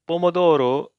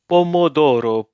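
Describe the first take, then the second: Both takes have the same delivery.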